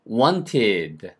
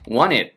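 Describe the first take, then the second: First: The t after the n is clearly pronounced. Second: The t merges into the n sound. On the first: "wanted가 원래 천천히 하는 발음이죠" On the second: "wanted를 더 빨리 하면 wanted 이렇게 된"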